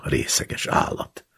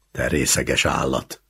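First: Contemptuous mutter. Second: Fuming. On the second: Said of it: "dühöngött". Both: A narrator's reading.

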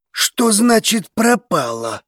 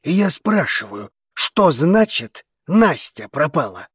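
First: Higher, drawn-out demand; incredulous, slow question. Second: Slow, controlled repeated question; measured, insistent demand; restrained insistence. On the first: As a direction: slowly ask it in raised-pitch disbelief. Alarmed question on overheard news. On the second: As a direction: hold back while pressing for an answer. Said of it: "сдержанно поинтересовался Артигосец". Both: A narrator's reading.

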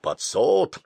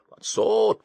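First: Grumbling, lower. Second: Grumbling, higher. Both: Acted. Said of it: "ворчал Басилов".

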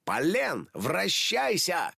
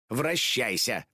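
First: Higher, slow ringing «вращайся»; a hero's magic command, «вращайся» drawn out; transformation call. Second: Said in the usual way. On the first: Acted. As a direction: call «вращайся» out slowly and grandly. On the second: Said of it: "закатила глаза Хлоя".

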